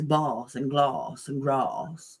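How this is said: Vowels are long, in a posh southern style.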